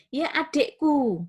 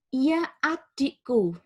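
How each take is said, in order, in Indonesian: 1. Kata pertama dimulai dengan vokal 'eh'. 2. Kata pertama dimulai dengan vokal 'ee'. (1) "Anda mengubahnya menjadi ia adikku. Ini tidak tepat" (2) "sudah benar"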